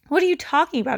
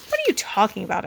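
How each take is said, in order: First: Higher, louder mocking copy; mocking mimicry. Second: Said in the usual way. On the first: Older brother mocking Peter's denial, mimicking. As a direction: parrot his words to tease. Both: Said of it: "Alex mimicked".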